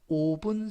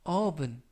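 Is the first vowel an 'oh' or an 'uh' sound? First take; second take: oh; uh. First: The first vowel sounds like 'oh'. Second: The first vowel sounds like 'uh'. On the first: The speaker calls it wrong. "오븐이 아니라" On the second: The speaker calls it right. "알파벳 O가 어 발음에 가깝습니다"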